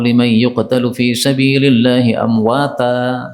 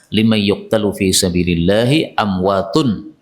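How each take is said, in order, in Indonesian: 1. Kata terakhir berakhir dengan bunyi 'a'. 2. Kata terakhir berakhir dengan bunyi 'un'. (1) "Salah juga" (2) "amwatun pakai dhammah"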